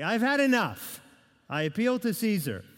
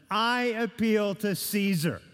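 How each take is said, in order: First: Imitating a man pushed too far, putting his foot down; fed-up Paul. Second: Paul's solemn appeal. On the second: Retold or imitated. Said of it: "he utters those famous words".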